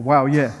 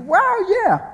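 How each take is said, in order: First: Low, mock-restrained cheer; low-pitched excitement. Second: Very high, excited squeal; high-pitched excitement. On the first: Preacher redoes everyone's excited reaction, low-pitched. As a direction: drop the excitement down into a low register. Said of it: "go low-pitched". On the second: Acted. Preacher acts out everyone's excited reaction, high-pitched. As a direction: let excitement send the voice way up. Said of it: "When you get excited, don't go high-pitched".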